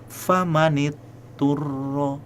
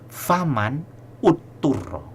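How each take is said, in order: First: The words run together through a linking 'i'. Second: A glottal catch and 'u' start the second word. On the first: The speaker calls it right. "maka mesti disambung ... hamzahnya hilang" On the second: The speaker calls it wrong. "kalau misalnya kita baca faman utturro"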